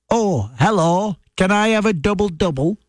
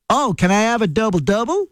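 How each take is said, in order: First: Put-on strong northern English accent. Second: Put-on northern English accent flattened toward Canadian, rising at the end; softened Canadian-style accent. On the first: Ordering coffee at a Tim Hortons drive-through, in a broad northern English accent. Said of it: "when I'm in a drive-through at a Tim Hortons and I say". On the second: Trying again at the drive-through so staff understand, in a toned-down northern English accent. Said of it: "sometimes I do it like that".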